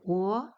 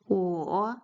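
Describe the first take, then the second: First: The pitch rises from middle to high. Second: The pitch dips low and then rises.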